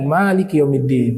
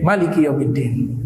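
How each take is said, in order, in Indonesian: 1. Huruf vokal pertama pada Maliki dibaca panjang. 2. Huruf vokal pertama pada Maliki dibaca pendek. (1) "bacanya panjang" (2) "dibacanya pendek"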